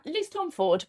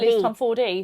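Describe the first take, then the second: First: The surname ends without a sounded final vowel. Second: The surname ends with a sounded final vowel.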